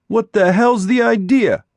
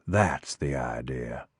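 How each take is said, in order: First: High, loud demand on "hell's"; angry shout. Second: Low, soft, slow "That's the idea"; cold menace. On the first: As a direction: yell "What the hell's the idea?" in outrage. Boy confronts intruder. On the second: Eddie answers coldly. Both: Acted.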